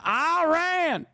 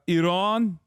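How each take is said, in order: First: The first vowel is a hard 'eye' sound. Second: The first vowel is not a hard 'eye' sound. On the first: The speaker is a typical American. "They hit the hot, the hard eye" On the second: The speaker is from the Iranian diaspora. "the diaspora Iran, Iranian voice"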